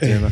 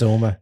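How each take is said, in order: First: The first vowel sounds like 'oo'. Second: The first vowel sounds like 'oh'. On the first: The speaker calls it wrong. "not Zuma" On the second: The speaker calls it right. "it's Zoma"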